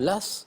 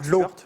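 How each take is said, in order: First: The name is said as 'lass', with final s. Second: The name is said as 'lo', no final s.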